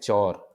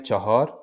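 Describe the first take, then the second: First: The word is one short syllable without the h. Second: The word has two syllables with a middle h. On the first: This is the everyday spoken form. "बोलचाल में कहते हैं चौर" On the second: This is the written, formal form. "जो written word है चार के लिए वो है पर्शियन में चौहोर"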